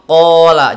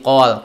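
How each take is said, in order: First: The word ends on a vowel, fully pronounced. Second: The word ends on a consonant, final vowel dropped. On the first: The reading continues into the next word. "Kalau ketika wasol" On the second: The reading stops on this word. "ketika posisi wakof"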